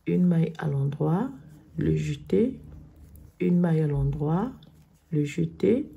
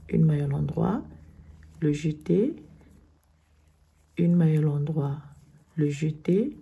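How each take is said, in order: Both takes have the same delivery.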